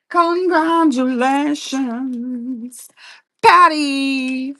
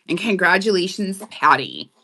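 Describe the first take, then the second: First: Sung, high, very slow, drawn-out singsong; sung, singsong congratulations. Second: Said in the usual way. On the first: Real, not acted. Sung, host celebrates winner Patty, drawn-out singsong. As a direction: sing it out, stretching every syllable.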